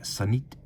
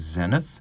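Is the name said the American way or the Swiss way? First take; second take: Swiss; American. First: The name is said with a Swiss French pronunciation. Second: The name is said with an American English pronunciation. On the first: "If you were in Switzerland, it would be something a lot more like" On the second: "in the United States, they typically recommend that their dealers call them"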